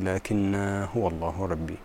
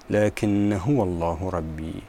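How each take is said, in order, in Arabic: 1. الألف الأخيرة من لكنّ تُثبت، والحركة طويلة. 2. الألف الأخيرة من لكنّ تُحذف، والحركة قصيرة. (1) "بإثبات الألف في الوصل والوقف" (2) "هذا الألف يهمل بالوصل، فتكون هكذا"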